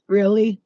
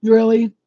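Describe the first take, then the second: First: Skeptical really. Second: Sarcastic really. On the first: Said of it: "she's like". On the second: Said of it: "With her face". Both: Retold or imitated.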